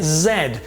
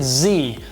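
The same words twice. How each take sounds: First: The letter is said the British way. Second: The letter is said the American way. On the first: "In Europe and in the U K, we pronounce it Z" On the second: "In America, you guys pronounce it Z"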